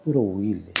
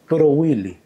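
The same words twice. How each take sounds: First: Showing how he said it. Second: Mock stern grab. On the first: Shown as a demonstration. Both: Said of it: "Así, mira, mira cómo hizo".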